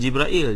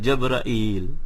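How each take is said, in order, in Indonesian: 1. Suku kata pertama memiliki vokal 'i'. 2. Suku kata pertama memiliki vokal 'a'. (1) "Bukan Jibrail" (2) "memfathahkan jim"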